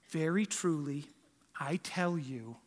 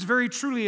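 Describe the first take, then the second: First: Hushed, gentle whisper; soft kindergarten-teacher voice. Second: Said in the usual way. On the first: Shown as a demonstration. Preacher mocks a sweet, calm Jesus: breathy whisper. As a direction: whisper it like a teacher soothing small kids. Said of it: "like a kindergarten teacher". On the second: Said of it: "that's not what Jesus is saying".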